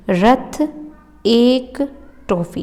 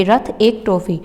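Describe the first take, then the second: First: Slow dictation with pauses between words; slow, spaced-out repeat. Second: Said in the usual way. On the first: Shown as a demonstration. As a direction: say it word by word for memorising. Repeats mnemonic slowly to memorise.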